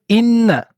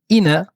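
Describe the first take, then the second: First: The n sound is held and doubled. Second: The n sound is short and single. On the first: The speaker calls it right. "on doit dédoubler la lettre nun" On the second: The speaker calls it wrong. "délaisser le doublement d'une lettre"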